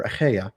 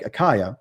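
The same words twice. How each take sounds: First: Achaia with a throaty "kh" and "ay" in the middle; throaty-CH pronunciation. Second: Achaia with a hard K and "eye" in the middle; hard-K pronunciation. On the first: Speaker offers the other way to pronounce the Greek region, Achaia as "uh-KHAY-uh". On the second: Speaker offers one way to pronounce the Greek region, Achaia as "uh-KYE-uh". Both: Shown as a demonstration. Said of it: "however you wanna pronounce it".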